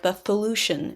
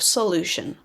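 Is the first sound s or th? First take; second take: th; s. First: The first sound is a lisped th. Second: The first sound is a clear s. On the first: The speaker calls it wrong. "like when someone has a lisp" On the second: The speaker calls it right. "instead of solution"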